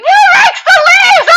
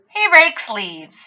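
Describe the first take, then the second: First: It is said excitedly, as an exclamation. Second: It is said as a plain statement.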